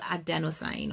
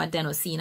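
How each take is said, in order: First: Adenosine with the last syllable rhyming with "fine"; long "eye" vowel at the end of adenosine; adenosine ending in "sign". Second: Adenosine with the last syllable rhyming with "green"; long "ee" vowel at the end of adenosine; adenosine ending in "seen". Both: Shown as a demonstration. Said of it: "not sure if I'm pronouncing correctly".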